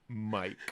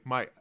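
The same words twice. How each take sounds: First: The final K sound is clearly heard. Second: The final K sound is dropped. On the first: The speaker calls it right. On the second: The speaker calls it wrong.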